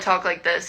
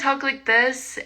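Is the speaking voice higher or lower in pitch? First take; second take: lower; higher. First: The voice is pitched lower. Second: The voice is pitched higher. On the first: The speaker feels relaxed and at ease. "and it's lower" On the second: The speaker does not know the listener well. "I talk in a higher voice"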